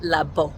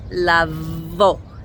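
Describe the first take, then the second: First: The middle consonant is a hard b sound. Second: The middle consonant is a soft v sound. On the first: The speaker calls it wrong. "not labo" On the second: The speaker calls it right. "So it's lavo"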